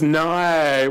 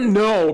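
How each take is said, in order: First: It is said with a drawn-out Australian vowel. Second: It is said with a plain American vowel. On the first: "becomes no, which means maybe" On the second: "The word no"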